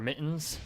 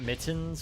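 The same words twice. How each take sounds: First: The middle T sound is dropped. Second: The middle T sound is clearly pronounced. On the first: "I don't pronounce my T's very well because it's Vermont or mittens" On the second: "not mittens"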